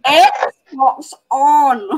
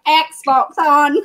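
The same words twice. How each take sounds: First: "Xbox on" a little louder, broad Scots vowels; mock Scottish "Xbox on". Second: Laughing, Scottish "Xbox on" with short rounded o; mock Scottish "Xbox on". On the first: Imitating brother in his bedroom, mock Scottish "Xbox on". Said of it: "you hear him in the bedroom going". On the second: Shown as a demonstration. Mocking her brother to friends, laughing Scottish "Xbox on". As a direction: say "Xbox on" in broad Scots, giggling. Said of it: "in an American accent, not".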